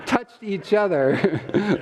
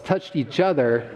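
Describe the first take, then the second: First: "touched each other" stretched slow, each word spaced out; "touched each other" drawn out with a sly pause; slow emphasis. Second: Said in the usual way. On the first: Shown as a demonstration. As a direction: lean on "touched each other" slowly and knowingly. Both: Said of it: "Let me emphasize that".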